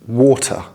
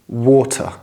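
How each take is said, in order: First: The middle T is pronounced clearly. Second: The same.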